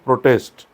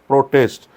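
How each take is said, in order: No difference in how they are said.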